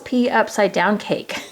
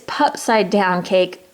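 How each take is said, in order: First: It starts with a letter P, then 'upside'. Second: It starts with one blended word, 'pupside'. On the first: The speaker calls it wrong. "when I pronounced this the last time" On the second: The speaker calls it right. "I don't know why I didn't see that before"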